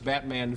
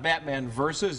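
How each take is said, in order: First: The last word is said as letter V. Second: The last word is said as versus. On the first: The speaker calls it right. "it's Batman v" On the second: The speaker calls it wrong. "It's not Batman versus"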